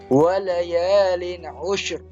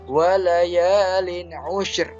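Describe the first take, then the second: First: The last word ends on a bare r. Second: The same.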